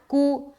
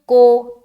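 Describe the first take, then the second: First: The vowel is a long 'oo' sound. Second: The vowel is an 'oh' sound. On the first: The speaker calls it right. "कू ही पढ़ेंगे ना" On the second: The speaker calls it wrong. "इस तरीके से नहीं पढ़ना"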